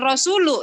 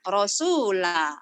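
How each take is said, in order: First: The vowel after Rasul is u. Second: The vowel after Rasul is a. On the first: The speaker calls it wrong. "bukan Rasulu ya" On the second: The speaker calls it right.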